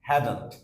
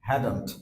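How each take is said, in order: First: The words are squeezed into one contracted word. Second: The same.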